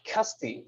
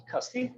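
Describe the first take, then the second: First: CASTI with falling tune; first reading. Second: CASTI rising high and softer at the end; questioning repeat. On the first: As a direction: read out Casti as a statement, falling at the end. First reading of unclear surname. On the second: Checks the surname as a question. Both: Real, not acted.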